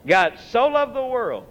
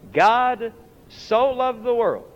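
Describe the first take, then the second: First: "God so loved the world" at normal pace with the weight on "so"; stressed quote. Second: "God so loved the world" drawn out slowly, leaning on "the"; slow stressed quote. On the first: Preacher repeating to congregation, stress on "so". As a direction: punch the word "so". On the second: Preacher to congregation, slow and weighty. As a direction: savor every word of "God so loved the world". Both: Shown as a demonstration.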